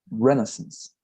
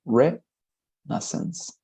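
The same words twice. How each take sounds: First: Said in the usual way. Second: "Renaissance" stretched out very slowly, syllable by syllable, ending on a rise; slow careful pronunciation. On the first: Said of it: "or it's pronounced Renaissance". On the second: Shown as a demonstration. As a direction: spell out "Renaissance" slowly for the class. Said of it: "it's pronounced Renaissance".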